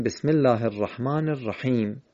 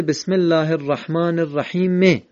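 First: "الرحیم" closed on a silent-vowel m, rahim; stopped on sukun. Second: "الرحیم" ending on an added short e, rahime; higher-pitched "الرحیم" with its end vowel pronounced; final vowel voiced. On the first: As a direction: end "الرحیم" on a plain m with no vowel after it. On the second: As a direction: sound the written kasra on the last م of "الرحیم". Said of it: "در خط قرآن نوشته". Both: Shown as a demonstration.

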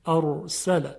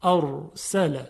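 First: Said in the usual way. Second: «ارسل» drawn out very slowly with one gentle r tap; light, soft r. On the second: Shown as a demonstration. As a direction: stretch «ارسل» slowly, r barely trilled. («ارسل» آهسته با «ر» خفیف و لطیف) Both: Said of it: "باید خیلی خفیف و لطیف گفته بشه".

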